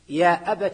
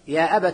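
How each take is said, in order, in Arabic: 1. الكلمة تنتهي بحركة i. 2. الكلمة تنتهي بحركة a.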